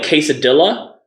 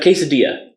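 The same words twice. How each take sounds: First: Quesadilla said "kay-suh-DILL-uh"; deliberately anglicised quesadilla. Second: Quesadilla said "kay-suh-DEE-uh"; usual Spanish-style quesadilla. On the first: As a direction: sound the L in quesadilla, rhyming with armadillo. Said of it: "Why wouldn't we call it". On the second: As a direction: say quesadilla with the double L as Y. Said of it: "can I give the best example". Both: Shown as a demonstration.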